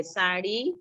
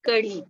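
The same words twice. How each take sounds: First: साड़ी with a quick flapped ड़; साड़ी said with a light flap. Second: कड़ी with a short flap and a falling tune; flapped ड़, falling. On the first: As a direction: flick the tongue for the ड़ in साड़ी. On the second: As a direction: drop the pitch on कड़ी. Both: Shown as a demonstration. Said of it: "उसका उच्चारण अलग है".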